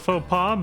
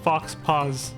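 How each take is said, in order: First: The x and s sounds are silent. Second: The x and s sounds are pronounced.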